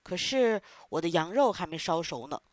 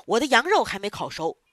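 First: Said in the usual way. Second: Stern boss. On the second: Acted. Boss angry about the fire.

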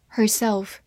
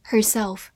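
The two takes are said the same way.

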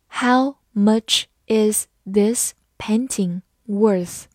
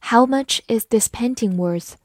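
First: Slow, word-by-word question; slow reading. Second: Said in the usual way. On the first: Shown as a demonstration. Teacher modelling the painting price question for learners, slowly. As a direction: ask it slowly, a gap after each word. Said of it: "好，慢慢来读". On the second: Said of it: "慢慢来读".

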